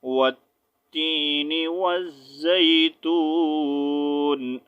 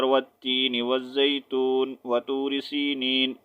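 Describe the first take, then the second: First: Slow recited tajweed, breath break after وَالزَّيْتُونِ; proper stop recitation. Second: Wrong linked reading. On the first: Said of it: "سانس توڑیں گے proper طریقے سے". (صحیح طریقے سے رک کر تلاوت) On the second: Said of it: "ایسا نہیں ہو کہ آپ". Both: Shown as a demonstration.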